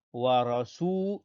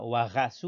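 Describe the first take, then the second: First: Wa rasu with tongue-tip r and full, dark a; correct ra. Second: Wa rasu with a French throat r; wrong ra. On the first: Teacher modelling it right, Arabic r in Wa rasu. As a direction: tap the r in Wa rasu, long su. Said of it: "on dit ra". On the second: Teacher showing what not to say, French r in wa rasu. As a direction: gargle the r lightly in wa rasu, French style. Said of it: "Bien prononcer le ra, on dit pas". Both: Shown as a demonstration.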